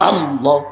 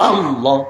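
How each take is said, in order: The two takes are said the same way.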